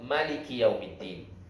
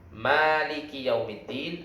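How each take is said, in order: First: The first vowel, after the m, is short. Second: The first vowel, after the m, is long. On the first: It names the king of the day. "dengan memendekkannya" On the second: It names the one who owns and controls the day. "Dengan memanjangkan mim"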